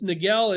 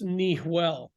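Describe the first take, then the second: First: The middle consonant is a hard g sound. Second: The middle consonant is a breathy h sound. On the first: The speaker calls it wrong. "everyone was calling it Rancho Niguel or Laguna Niguel" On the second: The speaker calls it right. "it actually should be pronounced Nihuel"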